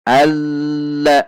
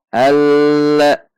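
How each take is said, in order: The two takes are said the same way.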